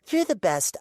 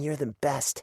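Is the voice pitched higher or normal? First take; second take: higher; normal. First: The voice is raised several pitches higher. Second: The voice is at its normal pitch.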